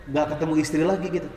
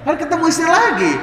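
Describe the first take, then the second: First: Said in the usual way. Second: "Kan ketemu istri lagi" said much higher and louder through a laugh; laughing correction. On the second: Shown as a demonstration. Preacher laughing as he corrects his joke to the fathers.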